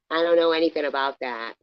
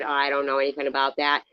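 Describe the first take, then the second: First: Said in the usual way. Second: Fast dismissive quote; mock quick dismissal; quick brush-off. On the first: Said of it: "We were like". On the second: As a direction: rattle it off to shut it down. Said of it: "And I said".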